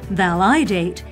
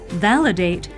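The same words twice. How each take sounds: First: The stress is on the second syllable. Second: The stress is on the first syllable.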